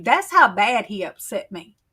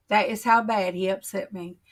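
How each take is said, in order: First: Leaning on how in That's how bad he upset me; emphatic repeat. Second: That is how bad said evenly, full form is, no push; settling back into plain voice; slower restatement. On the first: Insisting to viewers, how pushed up and loud. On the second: Restating to viewers, calmer and plain. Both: Real, not acted.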